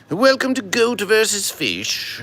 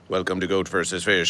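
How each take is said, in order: First: It is said in a grand, mighty put-on voice. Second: It is said in a flat, level, unvarying voice. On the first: "This is a mighty verses of Goat versus Fish" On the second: "Goat versus Fish used to be a very flat verses"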